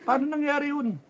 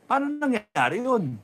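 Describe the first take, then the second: First: Mock disbelief. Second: Said in the usual way. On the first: Mocking disbelief at results.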